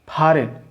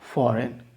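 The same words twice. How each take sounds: First: The first sound is made with both lips. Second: The first sound uses lower lip on upper teeth. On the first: The speaker calls it wrong. "ऐसा नहीं चलेगा" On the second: The speaker calls it right. "your lower lip and just touch your upper teeth"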